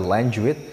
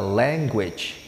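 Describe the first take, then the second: First: The middle g is pronounced like a j. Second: The middle g is pronounced like a g. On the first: The speaker calls it wrong. "nggak pakai J" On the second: The speaker calls it right. "kita baca language"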